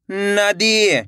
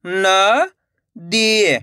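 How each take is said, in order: First: नदी joined, long final ई; blended whole word. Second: नदी split as न, long pause, दी; syllable by syllable. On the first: Teacher gives learners the result, नदी run together. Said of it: "तो मिलके बन जाएगा". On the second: Teacher models for learners, नदी broken into two syllables. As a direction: hold नदी in two separate pieces. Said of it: "direct मात्रा का उच्चारण करके पढ़ेंगे". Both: Shown as a demonstration.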